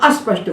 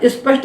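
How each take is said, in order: First: An extra 'a' vowel is added before 'sp'. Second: An extra 'i' vowel is added before 'sp'. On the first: "ना अस्पष्ट बोलना है" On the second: "ना स्पष्ट बोलना है"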